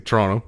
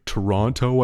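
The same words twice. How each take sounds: First: Toronto is pronounced the way Canadians say it. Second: Toronto is pronounced in a non-Canadian way. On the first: "I say Toronto. So that's a giveaway" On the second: "I don't say Toronto"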